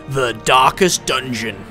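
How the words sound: It is said in a deep, low-pitched voice. The speaker calls it right. "I wonder if you have to say that in a low-pitched voice"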